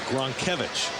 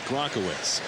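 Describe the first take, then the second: First: The name ends with a 'vich' sound. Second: The name ends with a 'witz' sound. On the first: The speaker calls it right. "It's Gronkevich" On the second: The speaker calls it wrong. "Ethan insists that it's not Gronkowitz"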